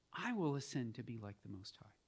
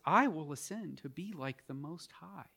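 First: Low, hushed repeat of the serpent's claim; a softer echo of the devil's words; quiet devil's boast. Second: Said in the usual way. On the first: Shown as a demonstration. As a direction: let it sink in, softly and lower. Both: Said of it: "that's how the devil talks".

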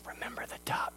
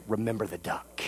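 First: Whispered menace in his ear; whispered threat. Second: Low, much softer menacing murmur; quiet threat. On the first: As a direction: hiss it as a secret blackmail threat. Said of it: "she leans over and goes". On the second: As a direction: lean in and threaten him under your breath. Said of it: "she leans over to Johnny and says". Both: Retold or imitated.

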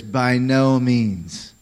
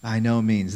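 First: Slow, weighty By no means; drawn-out emphatic By no means. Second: Said in the usual way. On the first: Shown as a demonstration. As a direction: lean hard on no in By no means. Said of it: "the emphatic nature of this no". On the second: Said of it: "The English doesn't capture the emphatic nature".

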